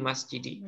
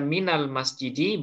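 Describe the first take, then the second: First: The vowel after min is i. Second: The vowel after min is a. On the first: "boleh kasroh" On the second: "boleh fathah"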